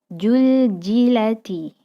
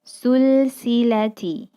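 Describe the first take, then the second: First: The word starts with a j sound. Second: The word starts with an s sound. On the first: "huruf za menjadi ja" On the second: "huruf za menjadi huruf sa"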